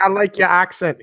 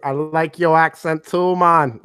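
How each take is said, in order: First: Said in the usual way. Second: Slow, lightly put-on Jamaican accent; imitated Jamaican accent. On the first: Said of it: "he was like". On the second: Retelling the Jamaican guest's reply, light Jamaican accent. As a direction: answer in a mild Jamaican lilt.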